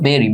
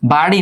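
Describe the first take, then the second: First: The first vowel sounds like 'eh'. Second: The first vowel sounds like 'ah'. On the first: The speaker calls it right. "এটার উচ্চারণ কিন্তু বেরি" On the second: The speaker calls it wrong. "বাড়ি না"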